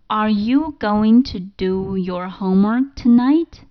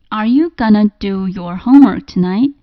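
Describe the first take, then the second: First: "Going to" is said in full. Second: "Going to" is reduced to "gonna".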